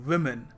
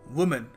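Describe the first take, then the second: First: The first syllable sounds like wi. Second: The first syllable sounds like woo. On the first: The speaker calls it right. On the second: The speaker calls it wrong.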